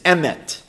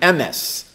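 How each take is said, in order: First: The word ends with a t sound. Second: The word ends with an s sound. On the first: "the Hebrew word for truth is emet"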